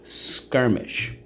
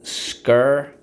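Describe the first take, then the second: First: Teacher whispers Skirmish back to class; whispered echo. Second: Skirmish said loud, with a rise; teacher models Skirmish for students, loud. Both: Shown as a demonstration. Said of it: "So let's go".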